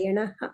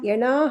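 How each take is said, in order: First: The vowel before the final h is short. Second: The vowel before the final h is long. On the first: The speaker calls it right. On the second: The speaker calls it wrong.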